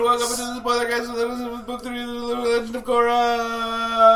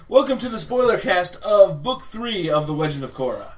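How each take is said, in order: First: It is said in a fast auctioneer voice. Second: It is said in her normal speaking voice.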